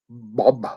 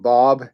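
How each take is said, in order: First: The B sound is strongly overemphasized. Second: The B sound is said in a normal way.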